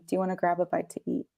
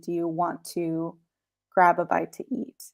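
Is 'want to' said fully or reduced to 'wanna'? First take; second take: reduced; full. First: 'Want to' is reduced and blended into 'wanna'. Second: Both words 'want to' are said in full. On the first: "it's so much better, easier, more relaxed" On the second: "full sentence would be"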